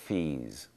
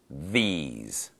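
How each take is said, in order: First: The first sound is voiceless, like an f. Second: The first sound is voiced, a buzzing th. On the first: The speaker calls it wrong. "if I don't voice it, ... Not correct" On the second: The speaker calls it right.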